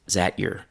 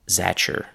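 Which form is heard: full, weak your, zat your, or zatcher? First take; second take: zat your; zatcher. First: "Is that" merges into one syllable, "zat". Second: The t and y merge into a ch sound. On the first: It is still less formal. "So still less formal is zat your" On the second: It is the most informal form. "The next form is the most chewing gum like"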